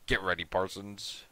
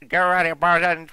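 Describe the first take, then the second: First: It is said in a deep put-on voice. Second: It is said in an annoying put-on voice. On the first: The speaker calls it wrong. "I don't know why I gave him such a deep voice" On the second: The speaker calls it right. "I had this annoying ass voice"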